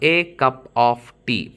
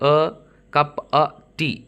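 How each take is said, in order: First: The word 'of' is said fully with its consonant. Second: The word 'of' is reduced to a schwa.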